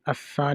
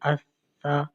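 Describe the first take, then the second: First: The s sound has a sharp whistling hiss. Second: The s sound is soft without a whistle. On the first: The speaker calls it wrong. "अस्सा नहीं पढ़ते हैं, इसमें सीटी की आवाज़ नहीं निकालते हैं" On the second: The speaker calls it right. "इसको बिल्कुल नरमी से पढ़ते हैं"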